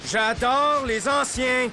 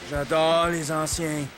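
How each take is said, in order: First: It is said with more enthusiasm. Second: It is said flatly, without conviction.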